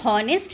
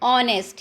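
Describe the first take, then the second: First: The word begins with an h sound. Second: The word begins with a vowel, no h. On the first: The speaker calls it wrong. "इसको हॉनेस्ट नहीं बोलते" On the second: The speaker calls it right. "ये एच silent है इसमें"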